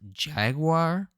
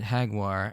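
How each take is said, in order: First: The name begins with a hard J sound. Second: The name begins without a hard J sound. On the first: This is how the name is spelled. "I know it's written as Jaguar" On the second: This is how the name is said in Japanese. "I'm going to pronounce it Jaguar, as that's how it's pronounced in Japanese"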